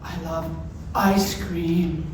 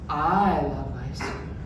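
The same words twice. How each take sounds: First: The stress falls on the words ice cream. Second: The stress falls on the word I. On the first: It is this food rather than another one. "as opposed to, let's say, cake" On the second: The speaker, like the listener, loves it. "Like you, I don't know"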